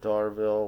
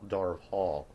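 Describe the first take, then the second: First: The name ends with a 'ville' sound. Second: The name ends with a 'hall' sound. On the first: The speaker calls it wrong. "I noticed that I called uh, Nina's homeland Darville" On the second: The speaker calls it right. "apparently it's Dar Hall, Darv Hall"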